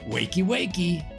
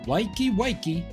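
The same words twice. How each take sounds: First: It is said in a neutral accent. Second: It is said in a male southern accent.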